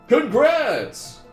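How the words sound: It is said like a game show announcer.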